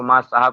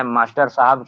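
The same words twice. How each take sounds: First: "मास्टर साहब" shortened to maa-saahab; village mispronunciation. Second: Said in the usual way. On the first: Shown as a demonstration. Teacher showing village speech, "मास्टर साहब" contracted to maa-saahab. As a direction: swallow the end of "मास्टर" in "मास्टर साहब". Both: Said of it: "को मास्टर साहब कह देंगे".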